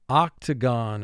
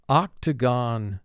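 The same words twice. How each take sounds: No difference in how they are said.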